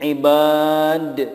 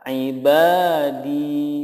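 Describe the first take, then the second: First: The final vowel is dropped entirely. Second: The final vowel is held long. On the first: The speaker calls it wrong. "menjadi ibad, itu salah" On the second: The speaker calls it right. "yang betul cara membacanya adalah ibadi"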